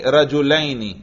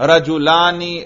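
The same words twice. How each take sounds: First: "رجلینی" with an ay glide, rajulayni; oblique dual ending. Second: "رجلانی" with a long aa, rajulaani; nominative dual ending. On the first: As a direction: sound out the ya in "رجلینی" as -ayni. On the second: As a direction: sound out the alif in "رجلانی" as -aani. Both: Shown as a demonstration. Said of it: "تلفظ سے اعراب کا پتہ چل رہا ہے".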